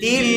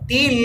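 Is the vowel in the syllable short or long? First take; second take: long; short. First: The vowel is drawn out a little longer. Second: The vowel is said short and clipped. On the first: The speaker calls it right. "একটু লম্বা" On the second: The speaker calls it wrong. "এরকম না"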